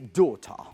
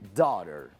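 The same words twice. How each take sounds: First: It is said in a British accent. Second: It is said in an American accent.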